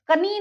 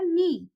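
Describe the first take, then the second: First: A k sound is heard before the n. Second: The word starts directly with the n sound. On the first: The speaker calls it wrong. "कनी नहीं बोलेंगे" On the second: The speaker calls it right. "यहाँ हो जाएगा नी"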